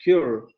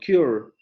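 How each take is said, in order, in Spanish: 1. La palabra termina con sonido r. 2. La palabra termina con sonido r.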